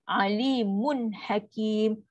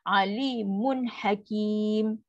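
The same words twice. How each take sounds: No difference in how they are said.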